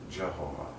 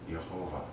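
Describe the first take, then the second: First: The name begins with a hard J sound. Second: The name begins with a soft Y sound. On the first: "Jehovah with a J" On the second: "that's a softer pronunciation"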